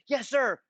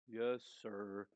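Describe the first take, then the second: First: It is said quickly and crisply. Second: It is said slowly and lazily.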